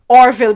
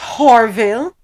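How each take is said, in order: First: The name starts with a vowel sound. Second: The name starts with an h sound.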